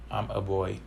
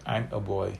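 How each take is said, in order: Both takes have the same delivery.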